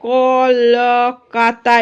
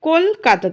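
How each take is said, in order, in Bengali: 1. শব্দটি ছোট ছোট আলাদা অংশে ভাঙা। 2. প্রথম অংশ kol একটি একক হিসেবে উচ্চারিত হয়। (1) "আমরা বলি না কলকাতা এরম বলি না" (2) "আমরা বলি কলকাতা, তাহলে কোলটা একসাথে হয়ে যাচ্ছে"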